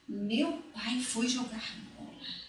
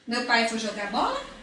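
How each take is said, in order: First: It is said with excited emotion. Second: It is said as a direct question.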